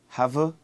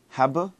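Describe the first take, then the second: The two takes are said the same way.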